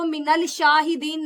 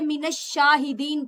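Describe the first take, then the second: First: A clear L sound comes before the sh. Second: The L merges into a doubled sh sound. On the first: The speaker calls it wrong. "नहीं पढ़ा जाएगा" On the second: The speaker calls it right. "बल्कि मिनश शाहिदीन पढ़ा जाएगा"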